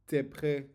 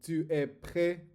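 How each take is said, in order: First: 'Tu es' is shortened into one syllable. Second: Both words of 'tu es' are fully pronounced. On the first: This is how natives actually say it. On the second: This is the textbook way of saying it.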